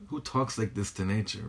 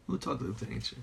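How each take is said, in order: First: Said in the usual way. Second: Much softer, as if to oneself; hushed repeat. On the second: Real, not acted. Teacher marvelling at talking to nature, hushed. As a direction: drop the volume on the repeated question. Repeats amazed question to himself.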